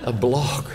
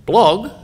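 First: A blog repeated through a chuckle; laughing repeat. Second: High, loud incredulous yelp; mock shock. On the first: Acted. Speaker to amused audience, repeating the word through laughter. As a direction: savour the silly word with a laugh. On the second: Speaker to audience, scandalised by the word, high incredulous yelp. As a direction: recoil at the word like it's filthy.

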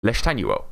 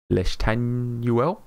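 First: Leshtanuel said in one quick go, falling at the end; settled pronunciation. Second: Leshtanuel drawn out slowly, rising at the end; unsure, stretched-out attempt at Leshtanuel, lifting at the end; tentative pronunciation. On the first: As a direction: say Leshtanuel as a finished statement. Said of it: "Was that correct?". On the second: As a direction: sound out Leshtanuel slowly as a question. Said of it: "Time for me to butcher a name". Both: Real, not acted.

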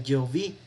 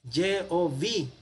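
First: Said in the usual way. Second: "Yehová" read out as the written vowels give it, a little higher; vocalized reading. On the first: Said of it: "No es para pronunciar Yehová". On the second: Shown as a demonstration. Teacher showing how the name is vocalized in the text, careful demo. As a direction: sound out "Yehová" as the vowel points show it. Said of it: "a veces se vocaliza aquí, así".

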